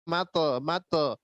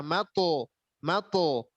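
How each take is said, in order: First: MATE with a light, thinned t and schwa; faulty light bounce on mate; thin wrong ending. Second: MATO with a heavy, rounded ending; full, heavy qalqalah on mato; thick echoed stop. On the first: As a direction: let mate end thin instead of rounded. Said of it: "tidak boleh". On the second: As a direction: bounce the t of mato thick and dark. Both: Shown as a demonstration.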